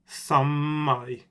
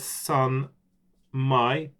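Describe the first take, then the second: First: The N merges into a long, doubled M. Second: A separate N sound comes before the M. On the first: The speaker calls it right. "it's pronounced samai" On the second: The speaker calls it wrong. "it says here san mai"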